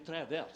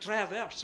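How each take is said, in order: First: It is said with a French accent. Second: It is said with a plain English accent. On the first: "They say it French" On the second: "they don't say it like that"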